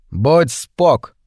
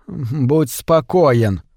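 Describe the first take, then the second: First: Clipped insistent slang, Будь punched; stubborn. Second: Very slow, each word set right; correcting. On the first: Clarence sticks to his slang against Trimble, stubborn. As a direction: insist on the short form, not giving in. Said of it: "не отступал Кларенс". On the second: Trimble corrects Clarence's slang, slow and pedantic. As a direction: spell out the proper phrase like a teacher. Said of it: "поправил Тримбл". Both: A narrator's reading.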